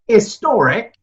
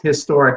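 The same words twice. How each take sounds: First: It begins with a vowel, without H. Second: It begins with an audible H sound.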